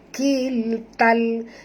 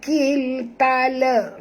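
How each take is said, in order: First: The word ends on a clear l sound. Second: An extra a vowel follows the l. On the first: The speaker calls it right. "bunyikan lam yang mati dengan jelas" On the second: The speaker calls it wrong. "jangan baca kil tala"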